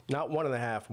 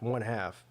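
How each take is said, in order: First: Said in the usual way. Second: "one half" said slowly, falling at the end; stress on one half. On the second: Shown as a demonstration. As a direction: set "one half" firmly apart from "one and a half".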